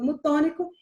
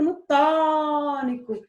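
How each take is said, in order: First: Said in the usual way. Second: "tônico" with a long held "tô"; stretched stressed syllable. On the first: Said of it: "Se eu passo mais tempo no tônico". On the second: Shown as a demonstration. Teacher showing the tonic syllable, "tô" of "tônico" drawn out. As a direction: stretch the "tô" in "tônico", then fall away. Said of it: "Eu passo mais tempo".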